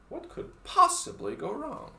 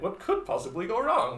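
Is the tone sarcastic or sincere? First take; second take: sarcastic; sincere. First: It is said in a sarcastic tone. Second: It is said in a sincere tone.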